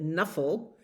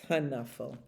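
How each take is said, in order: First: The word begins with a plain N sound. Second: The word begins with a K then N sound.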